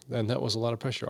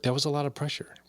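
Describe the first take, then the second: First: "that" leaned on, back at usual pitch; "And that was a lot of pressure", weight on "that"; stress on that. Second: "a" lifted high as a lot; "That was a lot of pressure", lean on "a" in "a lot"; first take raised on "a"; stress on a. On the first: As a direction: repeat it, pressing "that". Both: Shown as a demonstration.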